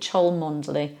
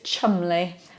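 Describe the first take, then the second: First: The name is said with every written letter. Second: The name is shortened to two syllables. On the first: The speaker calls it wrong. "surely it's got to be pronounced like that, phonetically" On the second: The speaker calls it right. "we miss all kinds of letters out"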